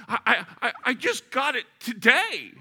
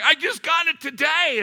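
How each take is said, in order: First: High, loud, halting stammer; stammering owner. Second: High, loud, strained wail; stunned owner. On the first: A stunned new Porsche owner stammering out his loss. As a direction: stutter it out in disbelief. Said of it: "he was stammering and staggering". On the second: The Porsche owner wailing at the dent, mock despair. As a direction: wail it like the car was your baby. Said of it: "he was stunned". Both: Retold or imitated.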